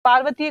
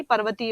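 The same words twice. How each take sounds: First: पार्वतीय with a long aa in the first syllable; पार्वतीय read as the wrong spelling; wrong form read out. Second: पर्वतीय with a short a in the first syllable; पर्वतीय read as the correct spelling; correct form given. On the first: Teacher reads out the wrong form पार्वतीय. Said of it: "पार्वती नहीं". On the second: Teacher gives the correct form पर्वतीय. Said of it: "पर्वतीय होगा". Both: Shown as a demonstration.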